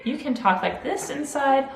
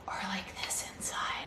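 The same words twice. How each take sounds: First: Said in the usual way. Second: Breathy unvoiced whisper, barely there. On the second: Shown as a demonstration. Teacher showing a child a whisper voice. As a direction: drop to a whisper to show the quiet way.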